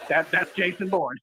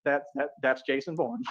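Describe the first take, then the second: First: Slow repeat. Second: A hint of a panicked agent; stunned movie quote. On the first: Shown as a demonstration. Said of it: "That's exactly what moment this is". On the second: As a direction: lower and softer, stammering in shock. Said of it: "he swallows real quick and he says".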